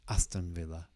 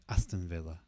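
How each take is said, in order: First: The two words run together as one. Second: The same.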